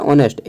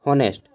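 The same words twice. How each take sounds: First: ऑनेस्ट with a silent H, starting on the vowel, O-nest; correct pronunciation. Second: हॉनेस्ट said with a spoken H at the start, HO-nest; wrong pronunciation. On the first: Teacher correcting students, ऑनेस्ट said with a silent H. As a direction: drop the H and open ऑनेस्ट straight on the vowel. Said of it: "वो होता है ऑनेस्ट". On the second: Teacher showing students the wrong way, हॉनेस्ट with a clear H. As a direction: sound the H in हॉनेस्ट as the common wrong way. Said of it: "हॉनेस्ट नहीं होता है". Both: Shown as a demonstration.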